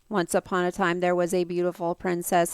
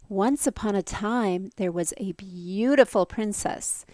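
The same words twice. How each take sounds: First: It is said in a flat, monotone voice. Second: It is said with lively, varied inflection. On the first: The speaker calls it wrong. "no voice inflection at all that sounded monotone and robotic like this" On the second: The speaker calls it right. "Instead, they'd probably be like"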